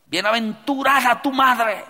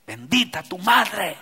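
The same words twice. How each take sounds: First: Higher and louder gushing praise; mock emotional woman; emotional outcry. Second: Said in the usual way. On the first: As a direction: cry it out overcome with emotion. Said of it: "cargadas de emoción". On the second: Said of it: "así le dijo".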